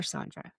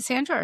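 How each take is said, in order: First: Sandra with a broad "ah", SAHN-druh; Sandra, first vowel as in "father"; pronunciation with broad a. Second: Sandra with a short a, as in "sand"; Sandra, first vowel as in "cat"; pronunciation with short a. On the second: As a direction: say Sandra as SAN-druh. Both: Shown as a demonstration. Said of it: "people pronounce it differently".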